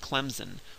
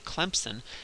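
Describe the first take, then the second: First: The S is pronounced as a Z sound. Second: A P sound is inserted after the M. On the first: The speaker is from the North. "people from up north will pronounce it Clemson with a Z" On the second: The speaker is from the South. "say it like a good Southerner ... you put a P in there"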